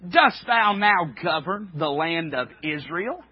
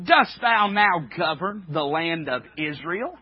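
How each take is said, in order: First: It is read in a put-on Jezebel voice. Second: It is read in a put-on Jezebel voice.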